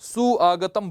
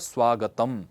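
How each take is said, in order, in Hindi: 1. 'u' और 'a' अलग-अलग स्वर की तरह बोले जाते हैं। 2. 'u' और 'a' मिलकर 'v' जैसी ध्वनि बन जाते हैं। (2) "उ और अ मिलाकर के व सुनाई पड़ने लग जाएगा"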